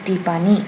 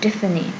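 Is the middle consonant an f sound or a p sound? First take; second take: p; f. First: The middle consonant is a p sound. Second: The middle consonant is an f sound. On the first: "but in Korean, she's [name]" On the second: "In English, she is simply [name]"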